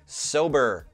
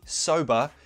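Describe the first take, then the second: First: It ends with a clear rhotic R sound. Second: It ends in a schwa with no R sound. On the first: "it would be sober. Er. They have that rhotic R sound" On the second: "it wouldn't be sober"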